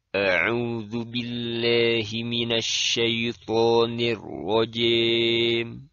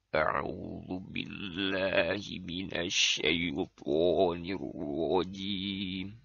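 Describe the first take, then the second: First: The jaw drops, bending vowels toward an e sound. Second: The voice trembles and shakes throughout. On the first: "Dia jadikan rahang bagian bawahnya senantiasa dikebawahkan" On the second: "menjadikan suara seolah-olah bergetar dan berguncang"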